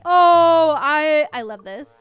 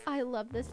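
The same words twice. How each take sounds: First: Loud burst of love for it; excited outburst. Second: Said in the usual way. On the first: Real, not acted. Gamer thrilled by a decoration, loud excited burst. Loves the item.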